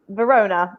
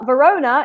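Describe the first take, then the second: First: The name is said with English sounds. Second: The name is said with Italian sounds. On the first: This is how English speakers say the city. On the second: This is how the city is called locally.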